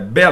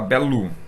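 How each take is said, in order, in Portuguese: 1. A vogal final é pronunciada 'o'. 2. A vogal final é pronunciada 'u'.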